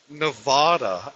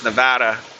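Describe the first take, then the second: First: An affected pronunciation that sounds overly sophisticated. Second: A plain pronunciation, as long-time residents say it. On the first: The speaker is a tourist or a newcomer. The speaker calls it wrong. "that just sounds so ridiculous. ... It sounds like you're trying way too hard to sound sophisticated" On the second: The speaker is a long-time local. The speaker calls it right. "All the locals... they all pronounce it as Nevada"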